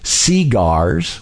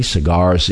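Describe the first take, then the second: First: "cigars" said SEE-gars, first syllable stressed and full; "cigars" with the stress moved to the front, SEE-gars; Southern stress on the first syllable. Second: Said in the usual way. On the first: Shown as a demonstration. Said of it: "the emphasis on the first syllable". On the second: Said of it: "pronounced cigars with".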